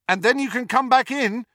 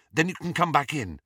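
First: "back" called out high and loud after her; shouted after her. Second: Said in the usual way. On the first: A narrator's reading. Harry shouts after Ginny running up the steps, loud call. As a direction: call it up the steps as she runs. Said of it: "he shouted after her".

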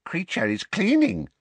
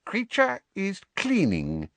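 First: High elf voice, stubborn repeat. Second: High, shifty house-elf voice; evasive. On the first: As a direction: say it again, stubbornly. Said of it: "the elf repeated". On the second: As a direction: dodge the question, elf voice. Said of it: "he said evasively". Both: A narrator's reading.

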